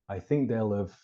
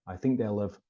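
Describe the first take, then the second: Both takes have the same delivery.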